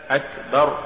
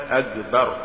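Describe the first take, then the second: First: Said in the usual way. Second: أكبر said "agbar", hard g for ك; faulty reading of أكبر, g replacing k; mispronounced ك. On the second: Shown as a demonstration. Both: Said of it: "تقرأ لحنا".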